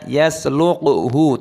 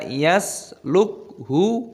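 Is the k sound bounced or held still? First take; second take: bounced; held still. First: The k sound is bounced with an echo. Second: The k sound is held still without bouncing. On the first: The speaker calls it wrong. "dipantulkan suaranya yaslukhu, tidak boleh" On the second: The speaker calls it right. "kafnya dimatikan dibaca lukhu, tapi tidak boleh dikolkolah"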